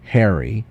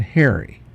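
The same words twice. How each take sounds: First: Slow "Harry" with an open short A; contrasted vowel. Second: Slow "Harry" said like "hairy"; contrasted vowel. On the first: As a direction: say "Harry" slowly, with the A of "hat". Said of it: "There's a difference between". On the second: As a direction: say "Harry" slowly with an "air" vowel. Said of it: "now I hear the inflection". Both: Shown as a demonstration.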